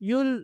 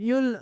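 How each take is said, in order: No difference in how they are said.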